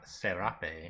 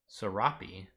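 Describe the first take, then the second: First: It is said with a Spanish-style pronunciation. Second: It is said with an American English pronunciation. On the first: "is how I would expect it to be if it's a Latin American thing" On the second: "That's the American pronunciation"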